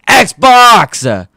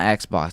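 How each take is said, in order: First: The word is screamed loudly. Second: The word is said at normal volume. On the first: The speaker calls it right. "You had to scream it" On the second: The speaker calls it wrong. "It's not Xbox"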